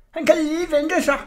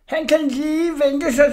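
First: High seething repeat punching kan; hissing threat. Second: High, slow, seething hiss with stress on sig; hissing threat. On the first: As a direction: lean hard on kan. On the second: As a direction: spit out the revenge vow. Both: Acted. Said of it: "hvordan han hvæsede".

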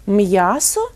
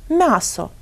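First: М'ясо with a hard M, then a separate y-glide; hard consonant. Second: М'ясо with a softened M, no y-glide; half-soft consonant. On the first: Teacher offers listeners the correct form, hard M in М'ясо. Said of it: "як же ми вимовляємо ці слова". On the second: Teacher offers the wrong option, soft M in м'ясо. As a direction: say м'ясо as mya-so, M melting into the vowel. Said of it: "якщо вимовляти ці звуки напівм'яко". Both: Shown as a demonstration.

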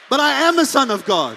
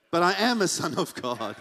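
First: "am" hit hard, louder and higher; bold shout. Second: Said in the usual way. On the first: Shown as a demonstration. Preacher declaring to the congregation, a bold shout. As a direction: declare it boldly.

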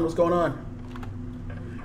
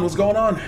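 First: Soft slow unvoiced whisper. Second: Said in the usual way. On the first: Shown as a demonstration. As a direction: breathe it out slowly.

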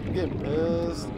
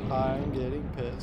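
First: Said in the usual way. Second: Lower, softer, slow simmering I'm getting pissed; quiet seething. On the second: Real, not acted. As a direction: let the anger sink in quietly.

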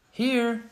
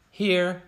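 First: Much higher, eager "here" called out; a kid raising their hand and calling. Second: Higher, eager "Here"; a kid calling out present; eager roll call. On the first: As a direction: call it again so the teacher hears. Answering roll call. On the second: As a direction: answer the teacher brightly. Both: Pretend.

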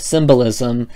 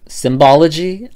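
First: "Symbolism." said as a settled correction, evenly; corrected word. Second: "Symbology?" questioned with a doubtful rising tune; testing "Symbology?" aloud, unsure it's real; unsure word check. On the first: Vlogger correcting herself, "Symbolism." stated plainly. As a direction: land on "Symbolism." as the fixed word. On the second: Vlogger doubting her own word, querying "Symbology?". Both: Real, not acted. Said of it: "I don't think that's a word".

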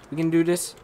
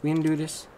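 The two takes are said the same way.

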